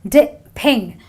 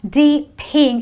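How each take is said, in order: First: The first vowel is a short I sound. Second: The first vowel is a long E sound. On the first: The speaker calls it right. "a short I sound because it goes di, ping" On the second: The speaker calls it wrong. "it's not D ping"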